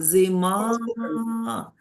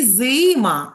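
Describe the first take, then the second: First: The stress is on the second syllable. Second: The stress is on the first syllable. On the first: The speaker calls it right. "а зима. Який наголошений звук? Правильно, а" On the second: The speaker calls it wrong. "Не зима"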